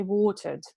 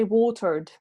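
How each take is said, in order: First: Watered with long O and silent R; British pronunciation. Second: Watered with the R sounded, American style; American pronunciation. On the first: Teacher contrasting accents for a student, British watered without the R. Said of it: "In British English". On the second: Teacher contrasting accents for a student, American watered with R sounded. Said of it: "So in American English". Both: Shown as a demonstration.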